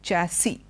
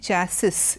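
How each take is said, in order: First: The final s is silent. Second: The final s is pronounced. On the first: The speaker calls it right. "the S is not pronounced" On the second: The speaker calls it wrong. "we don't say chassis"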